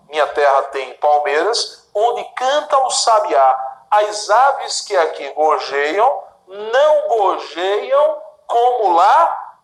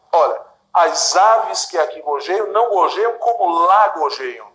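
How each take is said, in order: First: Slow, pausing between clauses; dividing the clauses. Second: Plain pace, final gorjeiam added; implicit verb spelled out. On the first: Teacher dividing the poem into clauses, slow and deliberate. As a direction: pause at each clause break. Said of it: "vamos fazer a divisão". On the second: Teacher revealing the implicit verb, matter-of-fact. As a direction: add the hidden gorjeiam at the end. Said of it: "o quinto verbo está implícito". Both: Shown as a demonstration.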